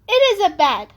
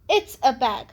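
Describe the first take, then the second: First: It is said as two full words. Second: It is contracted into one syllable.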